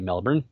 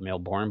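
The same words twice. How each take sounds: First: It is said the way locals say it. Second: It is said the way it is spelled. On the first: "but they say Melbourne" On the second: "spelled Melbourne"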